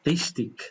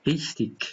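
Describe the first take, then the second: No difference in how they are said.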